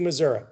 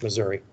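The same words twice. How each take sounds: First: It is said the rural Missouri way. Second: It is said the Saint Louis way. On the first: "I pronounce it that way. That's how folks in Missouri pronounce it" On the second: "Unless you live in Saint Louis, then it's Missouri"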